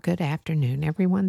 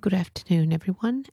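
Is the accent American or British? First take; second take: American; British. First: It is spoken in an American accent. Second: It is spoken in a British accent.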